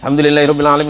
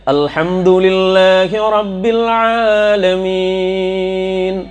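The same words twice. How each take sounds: First: It is recited quickly. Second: It is recited slowly and carefully. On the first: "Yang nomor tiga hadar" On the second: "Tertil itu seperti begini"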